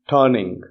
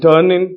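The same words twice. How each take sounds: First: The final g sound is pronounced. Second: The final g sound is dropped. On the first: "G sound or ga sound to be put in the end" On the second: "the short form of these words"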